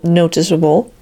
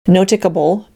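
First: The consonant before -able is a soft S. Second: The consonant before -able is a hard K. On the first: The speaker calls it right. "An E often changes the hard K sound to the soft S" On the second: The speaker calls it wrong. "lest we wonder if these words are to be pronounced"

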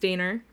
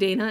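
First: It is said Long Island style with an added R. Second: It is said plainly, with no added R.

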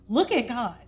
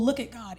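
First: It sounds warm, heartfelt and genuinely excited. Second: It sounds shallow and perfunctory, not deeply felt. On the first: The speaker has been spending real time with God. The speaker calls it right. "I had a great time in prayer with the Lord" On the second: The speaker has not been connecting with God. The speaker calls it wrong. "That kind of tone changes"

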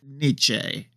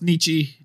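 First: The name has a German-like pronunciation. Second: The name has an American pronunciation. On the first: This is how someone else says it. "is how he says the name" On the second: This is how the speakers have been saying it. "maybe we've all been saying it American-like"

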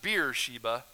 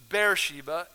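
First: The first syllable sounds like the word beer. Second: The first syllable does not sound like beer. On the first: The speaker calls it wrong. "it's not Beersheba. You're not getting beer here" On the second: The speaker calls it right. "It's Beersheba"

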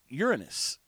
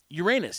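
First: It is said so it avoids sounding like 'anus'. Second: It is said so it sounds like 'your anus'. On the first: This pronunciation avoids the joke. "He called it Uranus. And maybe that's the correct way to say it" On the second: This is the pronunciation that invites jokes. "he wouldn't say Uranus"

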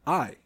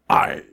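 First: It is said in a normal voice. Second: It is said in a pirate voice.

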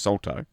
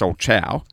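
First: The name is said ending in a 'to' sound. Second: The name is said ending in a 'chow' sound. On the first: This is the pronunciation commonly heard. "But I always hear it pronounced as salto" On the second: This is the proper pronunciation of the name. "which is actually pronounced solchow"

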